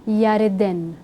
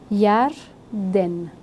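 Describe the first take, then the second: First: It is said in three syllables, with an extra vowel. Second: It is said in two syllables, no inserted vowel. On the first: The speaker calls it wrong. "não Yareden" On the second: The speaker calls it right.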